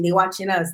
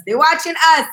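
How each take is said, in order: First: Said in the usual way. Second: "watching us" higher and more forceful; emphatic repeat. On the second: Real, not acted. Host boasts of viewers in over thirty countries, emphatic. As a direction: repeat it proudly, lifting "watching us".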